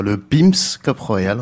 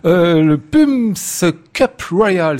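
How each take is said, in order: First: "Pim's Cup Royal" said slowly in fluent English; slow, confident English accent on the name; proper English pronunciation. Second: Slow, careful English-accented "Pumps Cup Royal"; a French host's hesitant try at an English accent; English accent attempt. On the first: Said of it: "Prononcez-le bien, vous qui êtes super anglophone". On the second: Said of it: "si mon accent anglais s'est amélioré". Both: Shown as a demonstration.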